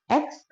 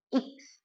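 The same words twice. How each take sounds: First: X said "eks", opening with e; name the letter X as "eks"; Indonesian X. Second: X said "iks", opening with i; name the letter X the German way, "iks". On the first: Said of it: "Kita bahasa Indonesia ngomongnya X". (X dibaca "eks" ala Indonesia) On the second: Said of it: "kalau bahasa Jerman bacanya". (X dibaca "iks" ala Jerman) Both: Shown as a demonstration.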